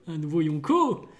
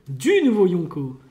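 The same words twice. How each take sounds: First: Said in the usual way. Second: Du punched louder, as in only one; stress on Du. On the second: Shown as a demonstration. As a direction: hit Du in "Du nouveau Yonko". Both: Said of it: "Donc il n'y en a qu'un seul".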